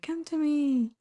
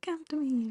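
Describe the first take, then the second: First: It is said louder, as if closer. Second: It is said quietly, as if far away.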